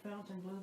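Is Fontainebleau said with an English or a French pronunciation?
English. The name is said with an English pronunciation. The speaker calls it wrong. "If you say Fontainebleau, they won't know what you're saying"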